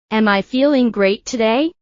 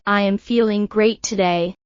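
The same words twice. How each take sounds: First: Questioning tune, climbing on "today"; rising question intonation. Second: Plain statement tune, settling down on "today"; falling statement intonation. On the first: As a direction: lift the pitch at the end of "today". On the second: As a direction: let the pitch fall towards "today". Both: Shown as a demonstration.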